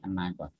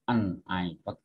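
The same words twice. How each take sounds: First: The two words run together as one. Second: The two words are said separately. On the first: The speaker calls it right. "tapi an iPod" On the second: The speaker calls it wrong. "bukan an iPod"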